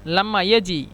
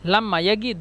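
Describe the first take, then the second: First: The verb has a j sound. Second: The verb has a hard g sound. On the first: "এখানে জিম" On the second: "জিমকে গন বলে"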